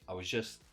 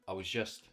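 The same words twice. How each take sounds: No difference in how they are said.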